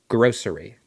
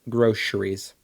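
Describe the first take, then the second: First: The middle consonant is an s sound. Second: The middle consonant is a sh sound. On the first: "They there's no shush shush shush with it" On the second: "I say it with a sh"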